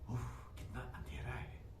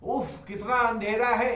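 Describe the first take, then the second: First: The line is said in a frightened, hushed way. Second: The line is said casually, with no fear. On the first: The speaker calls it right. "तो ये बोलेंगे" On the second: The speaker calls it wrong. "ऐसे थोड़ी ना बोलेंगे"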